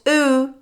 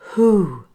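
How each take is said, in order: First: The word begins without an h sound. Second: The word begins with an h sound. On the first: The speaker calls it wrong. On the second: The speaker calls it right. "beware of this word"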